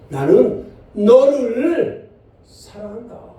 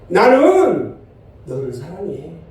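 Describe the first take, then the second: First: The stress is on the word 너를. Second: The stress is on the word 나는. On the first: The one loved is this person, not another. "너는 여기를 한번 이걸 강조해주면" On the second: The speaker is the one who loves. "나는의 강조점을 두고 한번 읽어볼게요"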